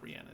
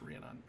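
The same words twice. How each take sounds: First: "Rhiannon" as ree-AN-un, with a short "a" as in cat; mistaken pronunciation. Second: "Rhiannon" as REE-uh-non, ending in an open "non"; corrected pronunciation. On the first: Game master showing how not to say Rhiannon, ree-AN-un. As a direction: softly say "Rhiannon", middle rhyming with "ran". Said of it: "It's not Rhiannon, it's Rhiannon". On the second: Game master correcting the name Rhiannon to REE-uh-non. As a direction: softly say "Rhiannon", last syllable rhyming with "on". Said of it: "it's Rhiannon". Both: Shown as a demonstration.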